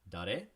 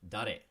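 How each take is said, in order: First: The voice rises at the end. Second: The voice falls at the end.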